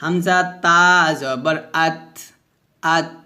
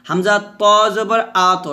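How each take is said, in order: First: Thin আত ending in a puff of air; light vowel, airy vowelless t in আত; hams. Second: Heavy, round আত with a bounced t; full-mouthed আত with an echoed release; qalqalah. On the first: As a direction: let breath run out after the t of আত. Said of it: "আর এটা হচ্ছে হামস". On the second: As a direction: thicken the vowel and bounce the t of আত. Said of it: "এটা হচ্ছে কলকলা". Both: Shown as a demonstration.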